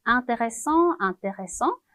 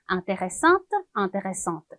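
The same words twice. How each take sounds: First: Intéressant said as "ang-te-re-SSANG", final t silent; teacher models intéressant with no final t sound; masculine French model. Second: Intéressante said with the final t sounded, "ang-te-re-SSANT"; teacher models intéressante, final t clearly heard; feminine French model. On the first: Teacher to class, modelling the masculine intéressant with silent t. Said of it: "발음은 똑같이". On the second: Teacher to class, modelling the feminine intéressante with a sounded t. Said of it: "발음도 intéressante가". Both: Shown as a demonstration.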